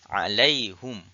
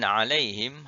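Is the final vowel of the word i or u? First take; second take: u; i. First: The vowel after h is u. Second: The vowel after h is i.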